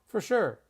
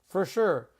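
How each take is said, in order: The two takes are said the same way.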